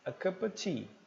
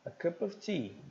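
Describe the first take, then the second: The two takes are said the same way.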